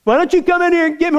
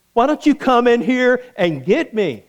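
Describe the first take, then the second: First: Much higher, louder, fast taunting dare; bold taunt. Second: Light teasing challenge; cheeky dare. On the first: Preacher taunts the king from the furnace, fast loud dare. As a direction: throw the challenge right back. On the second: Preacher dares the king from the fire, light taunt. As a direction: dare him to come in. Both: Retold or imitated. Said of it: "my response to him would have been".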